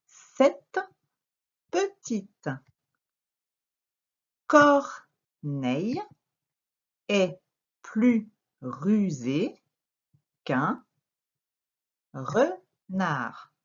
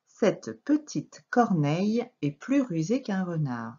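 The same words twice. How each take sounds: First: Very slow "Cette petite corneille", each word on its own; word-by-word reading. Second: "Cette petite corneille" joined up in one measured flow; careful, fluent rereading of "Cette petite corneille"; connected reading. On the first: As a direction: cut the sentence into words and syllables with long pauses, "re-nard". Teacher reads sentence word by word. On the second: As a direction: read through to "renard" without breaks. Same sentence reread in connected flow. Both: Shown as a demonstration.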